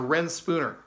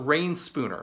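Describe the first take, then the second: First: The first word has a short 'e' vowel. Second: The first word has a long 'ay' vowel. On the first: The speaker calls it wrong. "I was mispronouncing the word" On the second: The speaker calls it right. "So it's a Rain Spooner"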